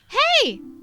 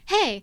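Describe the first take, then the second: First: It is said in a higher voice. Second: It is said in a lower voice. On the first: The speaker calls it wrong. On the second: The speaker calls it right.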